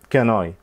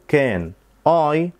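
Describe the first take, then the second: First: The n runs straight into the next word. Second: There is a break between the two words. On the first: The speaker calls it right. "هنربط بينهم" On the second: The speaker calls it wrong. "مش هنقف في النص"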